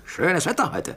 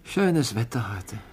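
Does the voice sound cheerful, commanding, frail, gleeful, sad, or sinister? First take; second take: commanding; sad. First: It sounds cold, clipped and commanding. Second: It sounds sad and resigned. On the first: The speaker is a general pleased with bombing weather. "Ein General, der gutes Flugwetter zum Bombardieren hat" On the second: The speaker must go to the office unhappily. "Jemand, der ins Büro muss und traurig ist"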